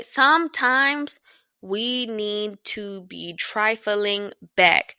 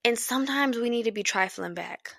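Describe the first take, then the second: First: Every word of "Sometimes we need to be trifling back" drawn out slowly, leaning on "back"; slow deliberate repeat of "trifling back"; slow emphatic. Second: Said in the usual way. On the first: Shown as a demonstration.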